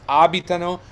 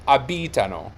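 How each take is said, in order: First: Abitano as AH-bi-ta-no; corrected stress. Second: Abitano as a-BEE-ta-no; mistaken stress. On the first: Teacher correcting the mistaken guess, first-syllable stress. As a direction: move the weight to the opening A of abitano. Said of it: "No, it's abitano". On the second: Teacher showing what learners might assume, second-syllable stress. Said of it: "you might think it should be". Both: Shown as a demonstration.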